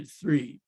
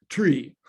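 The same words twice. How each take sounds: First: Said in the usual way. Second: "Tree" with a hard t for th; accented "Tree". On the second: Acted. Teller mimicking mafioso, "Tree" with a hard t. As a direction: punch "Tree", th turned into t.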